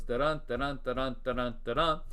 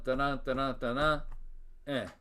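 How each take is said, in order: First: Da-DUN, stress on each second syllable; regular iambic beat. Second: Da-DUN repeated, then an unstressed "eh" tacked on; even "da-dun" beats ending on a weak, detached "eh"; feminine ending beat. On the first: Lecturer demonstrating a regular line, iambic beat. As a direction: chant "da-dun" evenly, punching every "dun". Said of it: "regular line goes". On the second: Lecturer demonstrating a feminine ending, extra weak syllable. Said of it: "Feminine ending". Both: Shown as a demonstration.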